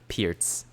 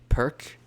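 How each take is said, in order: First: The word ends with a ts sound. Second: The word ends with a k sound. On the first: The speaker's own way of saying it. "but I pronounce it Pirts" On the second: Some other players say it this way. "some people that say it's the Perk"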